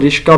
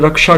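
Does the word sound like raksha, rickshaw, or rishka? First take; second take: rishka; raksha. First: The 'sh' comes before the 'k' sound. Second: The first vowel is 'a', not 'i'. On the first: "वो इसको रिश्का भी कहते हैं" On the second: "इसको अक्सर लोग रक्षा कहते हैं"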